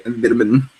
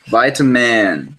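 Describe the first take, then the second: First: "Vitamin" with a short first i, as in "bit"; short-i pronunciation. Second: "Vitamin" drawn out as VY-ta-man; long-i pronunciation. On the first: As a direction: say "Vitamin" as VIT-a-min. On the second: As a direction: say "Vitamin" slowly with a long i, as in "bite". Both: Shown as a demonstration. Contrasts two pronunciations of vitamin.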